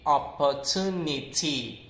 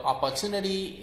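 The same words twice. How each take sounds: First: British OPPORTUNITY with crisp "ni-tee" ending; British-style OPPORTUNITY, clean T; British pronunciation. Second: American OPPORTUNITY ending "nuh-dee"; American flapped OPPORTUNITY; American pronunciation. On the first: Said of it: "in British accent". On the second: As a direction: soften the last T of OPPORTUNITY to D, American style. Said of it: "in American accent". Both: Shown as a demonstration.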